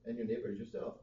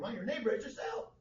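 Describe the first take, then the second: First: It is read plainly without emphasis. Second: It is read with strong emphasis.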